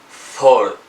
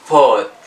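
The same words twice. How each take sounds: First: It is said with an American accent. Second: It is said with a British accent. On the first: "In American" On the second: "British say"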